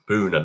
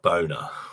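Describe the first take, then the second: First: The first vowel is a long 'oo' sound. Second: The first vowel is an 'oh' sound. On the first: The speaker calls it right. "Pronounced Boona" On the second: The speaker calls it wrong. "not boner"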